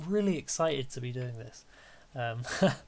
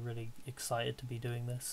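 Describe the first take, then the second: First: The voice is lively with varied pitch. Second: The voice is flat and monotone throughout. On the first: The speaker calls it right. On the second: The speaker calls it wrong.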